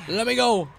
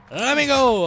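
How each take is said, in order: First: Louder, higher demand to be let go; insistent call. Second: High, loud drawn-out holler; escalated yell. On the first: Player to the game, let me go, raised insistent call. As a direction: call out to be released. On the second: Player stuck in the game, demanding release, high loud yell. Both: Real, not acted.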